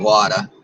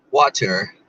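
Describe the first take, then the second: First: Said in the usual way. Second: "Water" with a drawled southern "wɔtə˞"; southern accent. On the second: Shown as a demonstration. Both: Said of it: "My southern accent".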